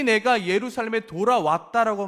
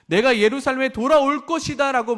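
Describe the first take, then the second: First: 내가 and 돌아왔다 stressed as done; stress on already. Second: 돌아올 pushed, said louder and high; stress on future. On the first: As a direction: land on 돌아왔다 as already finished. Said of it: "이미 "내가 예루살렘에 돌아왔다". (돌아왔다를 또렷하게 강조) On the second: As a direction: lean on 돌아올 as the wrong reading. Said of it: "말하는 것이 아니라". (돌아올을 높고 크게 강조) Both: Shown as a demonstration.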